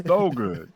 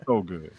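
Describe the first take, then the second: First: Leaning hard into the praise; louder emphatic repeat. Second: Said in the usual way. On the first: Real, not acted. To friends about Mr. T's ad, emphatic louder repeat. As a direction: punch it out louder the second time.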